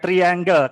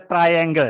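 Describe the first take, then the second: First: The first syllable sounds like 'tree'. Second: The first syllable sounds like 'try'. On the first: The speaker calls it wrong. "bukan triangle. Kalau tri kan tonggomu kuwi tri, Mas Tri kuwi" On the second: The speaker calls it right. "Jadi dibaca triangle ya"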